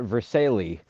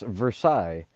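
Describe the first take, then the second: First: The name is pronounced the Anglicized way. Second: The name is pronounced the French way. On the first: This is how the locals say it. The speaker calls it wrong. "but they call it Versailles" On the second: This is the original pronunciation. The speaker calls it right. "You y'all know French. It's Versailles"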